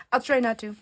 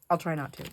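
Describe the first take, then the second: First: Higher, amused retake of "I'll try not to"; laughing repeat. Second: Said in the usual way. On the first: Real, not acted. Promising viewers not to repeat stories, amused.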